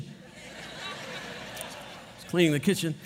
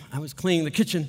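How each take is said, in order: First: "cleaning" drawn out in a slow whisper, every word stretched. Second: Said in the usual way. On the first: Shown as a demonstration. Pastor replaying the quiet kitchen moment for his congregation, slow whisper. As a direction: breathe the line out slowly, almost no voice.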